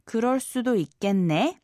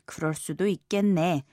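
First: The voice rises at the end. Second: The voice does not rise at the end. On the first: It asks whether it could be so. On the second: It is a statement that it could be so.

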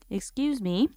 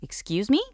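First: It is said in a polite, gentle tone. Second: It is said in an indignant tone.

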